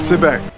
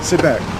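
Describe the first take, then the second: The two takes are said the same way.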